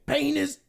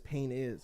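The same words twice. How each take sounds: First: The words run together to sound like 'penis'. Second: The two words are said clearly apart. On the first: "It sounds like he's saying penis" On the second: "when he says pain is"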